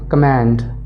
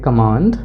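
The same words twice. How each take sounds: First: It is said in an American accent. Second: It is said in an Indian accent. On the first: "American accent में कमांड कहेंगे" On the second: "इसको Indian accent में कहेंगे"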